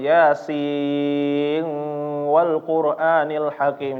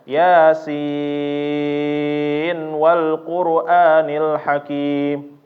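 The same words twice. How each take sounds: First: The final n is hidden in a nasal sound. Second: The final n is pronounced clearly before w. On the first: The speaker calls it wrong. "jangan di ikhfa juga ya" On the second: The speaker calls it right. "harus diizhar nunnya"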